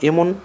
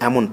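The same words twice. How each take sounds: First: The first vowel is a close e sound. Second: The first vowel is an open ae sound. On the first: The speaker calls it wrong. "না পড়ে" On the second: The speaker calls it right. "পড়ব"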